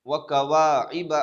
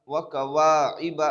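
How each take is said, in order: Both takes have the same delivery.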